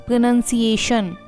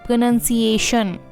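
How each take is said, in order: No difference in how they are said.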